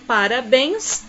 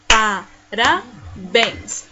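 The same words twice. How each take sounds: First: Said in the usual way. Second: PA, RA, BÉNS with pauses; PARABÉNS slowly, one syllable at a time. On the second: Shown as a demonstration. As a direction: split PARABÉNS into three slow beats. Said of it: "E assim separamos aqui as palavrinhas".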